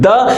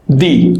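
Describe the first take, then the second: First: The vowel is a short 'uh' sound. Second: The vowel is a long 'ee' sound. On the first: The next word begins with a consonant. "if that word begins with uh, consonant, we'll pronounce it the" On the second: The next word begins with a vowel. "if that word begins with a vowel, we'll pronounce this the"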